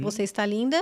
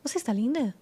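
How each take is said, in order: First: "linda" said evenly, as a statement; statement intonation. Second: "linda" lifted then dropped, as a Brazilian question; question intonation. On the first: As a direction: state "Você está linda" without questioning it. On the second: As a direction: ask "Você está linda?" through intonation alone. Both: Shown as a demonstration. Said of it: "você só muda a entonação".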